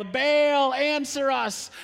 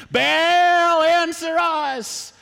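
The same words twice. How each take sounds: First: Higher-pitched shout to Baal; calling out. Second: Full-throated, high, drawn-out shout; louder yell. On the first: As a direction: prophets calling on their god. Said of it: "they shout out for Baal". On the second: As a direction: bellow a slow plea to Baal. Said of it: "You should yell a little louder". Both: Acted.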